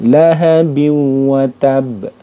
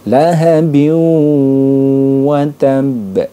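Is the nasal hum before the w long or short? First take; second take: short; long. First: The nasal hum into the w is cut short. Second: The nasal hum into the w is held long. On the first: The speaker calls it wrong. "itu kurang panjang" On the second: The speaker calls it right. "harus dibaca dileburkan dan didengungkan"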